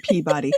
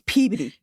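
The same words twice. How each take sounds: First: It is said like the cartoon character's name. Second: It is said with the local Massachusetts pronunciation. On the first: This is how outsiders say the town's name. The speaker calls it wrong. "everybody pronounces it, yeah, like Rocky and Bullwinkle, Mister Peabody" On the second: This is how residents say the town's name. The speaker calls it right. "It's, it's Peabody"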